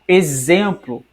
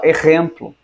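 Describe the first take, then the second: First: It is said with a Brazilian Portuguese sound. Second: It is said with a Spanish-speaker's sound.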